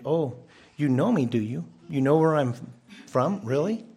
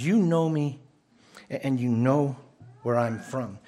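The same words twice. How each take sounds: First: Mock-doubtful questioning with rises on the questions; ironic question. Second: Loud cry. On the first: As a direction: tease them with "do you?" and "really?". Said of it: "This could also be as a question". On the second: Retold or imitated. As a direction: proclaim it outward as a plain statement. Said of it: "this is like a loud cry".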